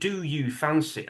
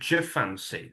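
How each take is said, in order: First: Each word is pronounced fully and separately. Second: 'Do you' merges into a single 'ja' sound. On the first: "I'm not saying do you fancy" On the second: "I'm saying Jafancy"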